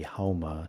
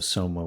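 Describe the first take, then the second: First: The word begins with an H sound. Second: The word begins with an S sound.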